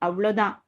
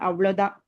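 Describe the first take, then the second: The two takes are said the same way.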